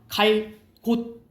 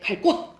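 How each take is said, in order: First: Said slowly with a break; the sound stays plain. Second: Said quickly together; the sound becomes tense. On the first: "이건 된 소리 안 나잖아" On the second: "이게 빨리 발음해야 돼"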